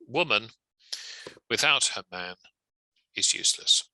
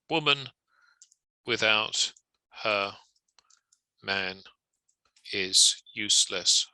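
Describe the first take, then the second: First: Short pauses come after woman and after man. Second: It is flat, with no pauses or emphasis. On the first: "a couple of parenthetical commas" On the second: "I'm trying to say this as robotically as possible"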